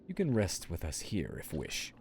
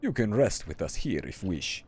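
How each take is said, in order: First: It is read in the speaker's ordinary accent. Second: It is read in an exaggerated Russian accent.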